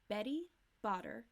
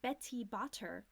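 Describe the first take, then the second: First: The middle consonants are soft, D-like flaps. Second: The middle consonants are crisp, released T sounds. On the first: The speaker calls it right. "no T's" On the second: The speaker calls it wrong. "It's not Betty Botter, right?"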